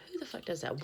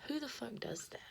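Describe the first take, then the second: First: Higher, full-voiced outrage; outraged. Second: Higher, whispered outrage; whispered rant. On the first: Rant, repeated aloud. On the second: Whispering outrage about strangers turning up unannounced. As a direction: hiss the question in disbelief. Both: Real, not acted.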